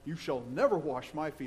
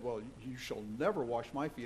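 First: It is said forcefully, with lively energy. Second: It is read in a calm, plain way.

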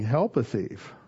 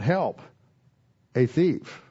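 First: 'Help' runs straight into 'a thief' without pausing. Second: 'Help' is followed by a pause before 'a thief'. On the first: The speaker is asking people to assist a thief. "Without the comma, it's saying" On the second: The speaker is calling for help because of a thief.

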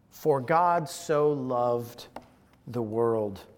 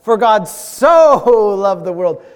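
First: The word so is not specially emphasized. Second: The word so is strongly emphasized.

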